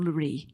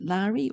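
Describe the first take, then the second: First: "Laurie" as luh-REE, stress at the end; second pronunciation. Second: "Laurie" as LAH-ree, stress up front; first pronunciation. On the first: Host offering the other option, "Laurie" as luh-REE. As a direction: say "Laurie" with a reduced first syllable, luh-REE. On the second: Host checking a panellist's name, "Laurie" as LAH-ree. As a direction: say "Laurie" with an open "ah" first syllable. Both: Shown as a demonstration. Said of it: "I didn't check your pronunciation".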